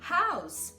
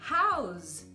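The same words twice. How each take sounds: First: The final consonant is a hissing S sound. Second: The final consonant is a buzzing Z sound. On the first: The speaker calls it right. "é um som de S mesmo" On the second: The speaker calls it wrong. "Não vai ser house"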